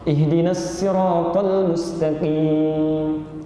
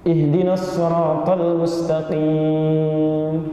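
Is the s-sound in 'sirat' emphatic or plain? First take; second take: plain; emphatic. First: The s in sirat is a light plain s. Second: The s in sirat is a heavy emphatic s. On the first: This is an accepted variant for those who cannot say the heavy sound. "Ada yang tidak bisa shad, misalnya sin" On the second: This is the standard recited form. "Pakai shad"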